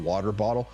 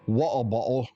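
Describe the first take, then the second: First: It is said in an American accent. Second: It is said in a British accent.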